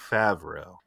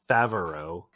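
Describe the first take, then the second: First: No vowel sound comes between v and r. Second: An extra vowel sound comes between v and r. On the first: The speaker calls it right. "It's just Favreau" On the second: The speaker calls it wrong. "not Favreau"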